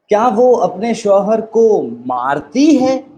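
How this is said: The stress falls on the word मारती. "अब emphasis कहाँ आ गया? मारती है।"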